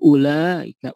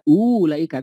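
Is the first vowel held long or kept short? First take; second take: short; long. First: The first vowel is kept short. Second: The first vowel is held long. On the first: The speaker calls it right. "U-nya tidak dipanjangkan, dilewat saja" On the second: The speaker calls it wrong. "U-nya tidak dipanjangkan, tidak ulaika"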